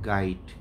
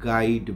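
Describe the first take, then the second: First: The word ends in a 't' sound. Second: The word ends in a 'd' sound. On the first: The speaker calls it right. "Original নাম হচ্ছে" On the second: The speaker calls it wrong. "অনেক উচ্চারণ করতে পারে না। গাইড বলে"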